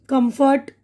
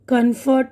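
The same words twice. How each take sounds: First: कम्फर्ट said clearly as kum-fert, both syllables full; कम्फर्ट repeated distinctly as kum-fert for learners; clear corrected demo. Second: Said in the usual way. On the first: Shown as a demonstration. Teacher to students, repeating कम्फर्ट clearly as kum-fert.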